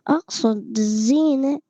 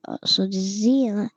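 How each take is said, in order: First: Slow, stretched "أقصد الزينة"; careful retake. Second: Said in the usual way. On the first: Shown as a demonstration. Retaking a line he said oddly, slow careful "أقصد الزينة". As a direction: draw out both words "أقصد الزينة" deliberately. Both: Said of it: "مش عارف ليه أقصد بقولها كده".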